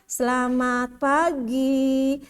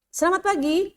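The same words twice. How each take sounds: First: It is drawn out too slowly. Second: It is spoken too quickly. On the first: "itu juga kelamaan juga" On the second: "itu terlalu cepat juga"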